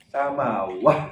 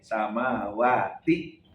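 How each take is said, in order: First: The word ends with a soft h sound. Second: The word ends with a t and vowel i.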